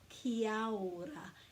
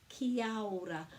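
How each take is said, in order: First: The 'a' after 'ki' is pronounced. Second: The same.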